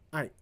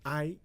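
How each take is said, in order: First: It is said heavily, like a sad sigh. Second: It is said lightly, like a brief acknowledgement. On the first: It expresses sadness, regret or sympathy. "a second pronunciation is I. ... It's like a, a heavy sigh" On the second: It expresses agreement or acknowledgement. "when you pronounce as I, uh, that means yes"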